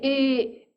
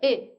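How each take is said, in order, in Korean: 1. 모음을 그냥 길게 늘인 거예요. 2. 모음이 짧고 끊어지는 소리예요. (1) "이거를 길게" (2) "짧게 이 상태에서"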